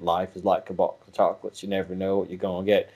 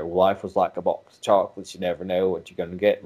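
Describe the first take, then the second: First: "is" said plainly, the quote in present tense; is version. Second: "was" said plainly, the quote as Forrest Gump's past-tense line; was version. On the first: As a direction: say "Life is like a box of chocolates" with a light, quick "is". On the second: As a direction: say "Life was like a box of chocolates" with an even, matter-of-fact "was". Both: Shown as a demonstration. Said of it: "Did you hear a difference between those two?".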